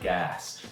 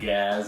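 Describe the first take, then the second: First: The word is said in a standard accent. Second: The word is said in a Philadelphia accent. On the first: "instead of" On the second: "his like Philadelphia accent thing"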